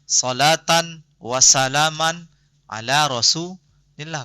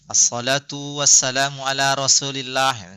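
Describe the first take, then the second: First: The first two nouns end in -an. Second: The first two nouns end in a u vowel. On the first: The speaker calls it right. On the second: The speaker calls it wrong. "Ada yang aneh nggak?"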